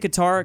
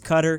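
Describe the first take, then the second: First: It rhymes with guitar, stress on the second syllable. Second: It sounds like cutter, stress on the first syllable. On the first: The speaker calls it right. "those two words rhyme" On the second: The speaker calls it wrong. "That definitely doesn't sound right"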